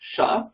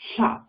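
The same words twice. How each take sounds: First: The consonant is a plain sh sound. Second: The consonant is voiceless air past the tongue's sides. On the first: "like a sha, like a shoe" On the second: "almost say an L, but allow the air and don't use any voice"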